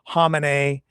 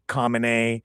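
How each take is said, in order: First: The name begins without a clear k sound. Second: The name begins with a clear k sound. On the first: This is how many others say it. "the way a lot of people pronounce it" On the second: This is how the speaker usually says it. "I've always kind of pronounced the K to some degree"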